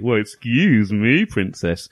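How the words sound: It is said in a cheeky tone.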